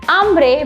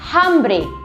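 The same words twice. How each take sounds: First: The word begins with no h sound at all. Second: The word begins with an audible h sound. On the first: The speaker calls it right. "la H in Espanol is always silent" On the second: The speaker calls it wrong. "it is not tengo hambre"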